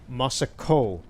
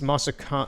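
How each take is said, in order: First: The final vowel sounds like 'oh'. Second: The final vowel sounds like 'aw'. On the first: The speaker calls it wrong. "That is not natural at all for my voice" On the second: The speaker calls it right. "It has to have an A W in it for my accent"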